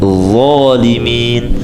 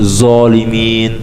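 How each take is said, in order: First: The first consonant is a thick, emphatic dh. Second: The first consonant is a plain, light z. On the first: The speaker calls it right. "Bukan huruf zai tapi zalimin" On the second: The speaker calls it wrong. "seperti huruf zai ... Ini keliru"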